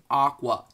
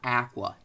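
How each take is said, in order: First: The word is said in a non-British way. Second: The word is said in a British way. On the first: The speaker calls it right. "it's Aqua" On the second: The speaker calls it wrong. "not Aqua, unless you're British"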